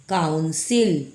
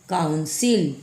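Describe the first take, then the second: The two takes are said the same way.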